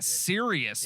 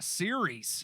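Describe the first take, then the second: First: The word is said like serious, three syllables. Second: The word is said as series, two syllables. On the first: The speaker calls it wrong. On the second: The speaker calls it right.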